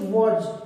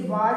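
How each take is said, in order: First: The vowel is a short rounded 'o' sound. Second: The vowel is a long open 'aa' sound. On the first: The speaker calls it right. "Right pronunciation वॉज है" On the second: The speaker calls it wrong. "इसे वाज भी बोलते हैं कुछ"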